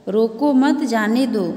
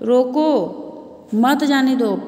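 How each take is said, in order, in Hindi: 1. विराम शब्द 'mat' के बाद आता है। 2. विराम शब्द 'roko' के बाद आता है। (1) "हमको मत रोको जबरदस्ती कहा, हमको जाने दो" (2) "उसको रोक लो, जाने मत दो"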